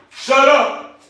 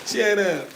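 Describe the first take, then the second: First: Loud high bark of shut up; hollering. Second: High thin shut up with no bass; a squeaky, powerless shut up; weak high shut up. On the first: Real, not acted. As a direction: holler it to shake them up. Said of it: "I gotta do some hollering at some of these dogs". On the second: Shown as a demonstration. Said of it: "You can't get over that".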